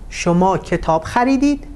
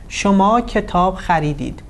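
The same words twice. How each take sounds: First: The pitch rises on the final verb. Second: The pitch falls at the end of the sentence. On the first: It is a yes-no question. "So the intonation is rising" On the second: It is a statement. "So the intonation is falling"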